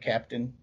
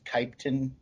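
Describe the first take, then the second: First: The first vowel sounds like 'a'. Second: The first vowel sounds like 'i'. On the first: This is how people normally say it. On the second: This is how the character talks.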